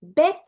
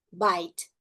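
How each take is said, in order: First: 'bit' with a brief vowel; short I in 'bit'. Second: 'bite' with the vowel named like the letter; long I in 'bite'. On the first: Teacher contrasting pairs, short vowel in 'bit'. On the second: Teacher contrasting pairs, long vowel in 'bite'. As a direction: stretch the I of 'bite', silent E. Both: Shown as a demonstration. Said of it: "Vamos fazer junto".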